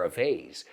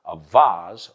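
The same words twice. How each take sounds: First: Vase said VAYZ; "vase" with an ay vowel; long A in vase. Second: Vase said VAHZ; "vase" with an ah vowel; broad A in vase. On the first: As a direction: say vase to rhyme with days. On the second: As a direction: say vase to rhyme with Oz. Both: Shown as a demonstration. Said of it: "Another word like that is".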